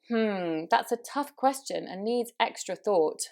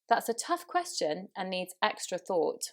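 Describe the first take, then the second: First: A hesitation sound comes before the sentence. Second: A silent pause comes before the sentence. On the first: The speaker seems uncertain and unsure. The speaker calls it wrong. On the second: The speaker seems to take a moment to think. The speaker calls it right.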